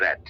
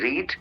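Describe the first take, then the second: First: The vowel is short, like in 'red'. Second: The vowel is long, like in 'reed'. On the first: It is a past form of the verb. "रेड pronounce करते हैं" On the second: It is the present form of the verb. "इसको हम रीड pronounce करते हैं"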